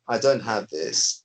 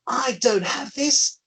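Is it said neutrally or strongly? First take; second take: neutrally; strongly. First: It is said in a plain, neutral way. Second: It is said strongly, with extra force.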